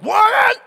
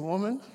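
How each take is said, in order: First: The word is said sharply and harshly. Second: The word is said calmly and gently. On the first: It is an insulting, derogatory form of address. "it wasn't like" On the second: It is a respectful, ordinary form of address. "He was not saying it in a derogatory fashion"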